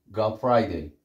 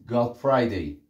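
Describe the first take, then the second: The two takes are said the same way.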